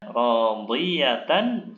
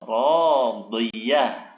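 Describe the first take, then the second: First: The word ends with a full 'tan' ending. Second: The word ends with a soft 'h' sound. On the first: The reader continues without stopping on this word. "Contohnya radiyatan" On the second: The reader stops on this word. "jika waqaf dibaca radiyah"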